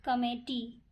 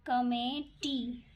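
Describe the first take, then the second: First: Said in the usual way. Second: committee stretched out syllable by syllable; drawn-out committee; slow dictation. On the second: Shown as a demonstration. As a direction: say committee slowly as if writing it. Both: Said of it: "स्वर पहले लिखाएंगे".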